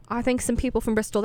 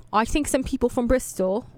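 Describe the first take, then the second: First: A quick, mock British accent, badly done. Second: Said in the usual way. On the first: Shown as a demonstration. Radio host mocking Bristol band with bad British accent. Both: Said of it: "That's a horrible British accent".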